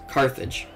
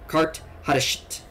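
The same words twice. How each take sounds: First: The name is said in its familiar English form. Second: The name is said in a Latin-like form. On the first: "we're going to stick with the famous Carthage" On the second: "I'm not sure if that's the Latin name for them"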